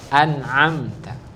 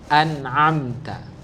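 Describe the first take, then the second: First: A glottal catch first, then a pharyngeal sound. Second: A glottal catch first, then a pharyngeal sound.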